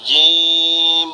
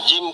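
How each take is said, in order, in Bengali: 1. স্বরধ্বনিটি টেনে দীর্ঘ করে বলা হয়। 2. স্বরধ্বনিটি হ্রস্ব, ঝটপট বলা হয়। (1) "টেনে বলতে হবে" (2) "জিম কইবা না"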